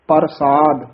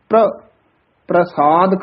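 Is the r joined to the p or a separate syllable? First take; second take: separate; joined. First: The r forms its own separate syllable. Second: The r is joined directly to the p. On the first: "ਰਾਰਾ ਪੂਰਾ ਵੀ ਆਉਂਦਾ ਹੈ, ਉਸ ਦਾ ਉਚਾਰਨ ਹੈ ਪ੍ਰਸਾਦ।" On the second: "ਪੱਪੇ ਦੇ ਹੇਠਾਂ ਚਰਨਾਂ 'ਚ ਰਾਰਾ ਹੈ। ਇਸ ਦਾ ਉਚਾਰਨ ਪ੍ਰਸਾਦ ਕਰਨਾ ਹੈ।"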